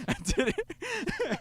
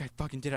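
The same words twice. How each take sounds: First: High, slow, laughing gloat; gleeful kid cackling over his prank; giggling brag. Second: Said in the usual way. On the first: Retold or imitated. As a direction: squeal it through laughter. Boy giggling over his deed.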